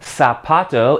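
The z is said like an s. "in Mexico"

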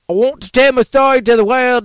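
It is read in a put-on Australian accent.

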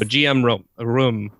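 The name is said with a French pronunciation. "you pronounce it GM"

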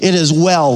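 The voice falls at the end. The speaker firmly declares that all is well. "like it's a declaration"

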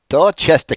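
It is said in a Boston accent.

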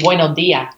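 The final s sounds are dropped, Chilean style.

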